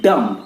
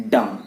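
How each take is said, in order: First: "dumb" with a B at the end; sounded B, wrong. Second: "dumb" as dum, B dropped; silent B. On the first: Teacher showing what not to say, sounded B. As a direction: say "dumb" as dum-b, mistakenly. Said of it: "It is not dumb". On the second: Teacher giving the correct form, silent B. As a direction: say "dumb" ending on M. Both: Shown as a demonstration.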